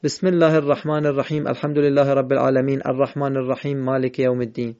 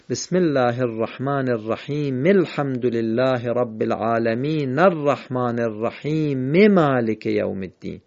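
First: Rapid run-on, "الرحیم" and "العالمین" ending in bare consonants; hurried verses, no vowel linking "العالمین" to "الرحمن"; joined on sukun. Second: Measured unbroken chain, "الرحیم مالک" as rahime-malik; correctly joined. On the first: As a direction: race through without breath, saying "الرحیم الحمد" as rahim al-hamd. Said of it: "اگه وقف نکردیم نمیشه بگیم". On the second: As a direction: sound every end vowel, "العالمین الرحمن" as alaminar-rahman. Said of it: "این حرکات آخر رو حتماً تلفظ کنیم". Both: Shown as a demonstration.

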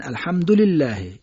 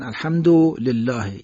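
First: الحمدلله held on ham, short du linked to lillah; short joined vowel. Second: الحمدلله split after a stretched du, then lillah; overcareful separation. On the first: Teacher showing how native speakers recite, joined reading. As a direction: join du to lillah in الحمدلله without stretching. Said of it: "صدای کوتاه رو نمیکشن". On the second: Teacher imitating obsessive reciters, separated words. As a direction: break الحمدلله into alhamdu, lillah, slowly. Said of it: "از هم جدا کنن". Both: Shown as a demonstration.

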